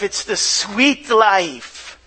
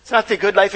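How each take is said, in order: First: "sweet life" drawn out slowly; savoured sweet. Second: Said in the usual way. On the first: Shown as a demonstration. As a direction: linger on "sweet", slow and savouring.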